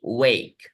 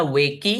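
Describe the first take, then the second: First: Said in the usual way. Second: वेकी with an audible final "ee", rising; two beats in वेकी, way-kee; wrong two-syllable reading. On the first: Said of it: "लेकिन हम पढ़ते क्या है?". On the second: Shown as a demonstration. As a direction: sound the silent e to make वेकी. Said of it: "तो ये दो सिलेबल्स वाला वर्ड हो जाता है".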